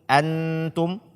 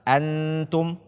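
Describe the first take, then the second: Both takes have the same delivery.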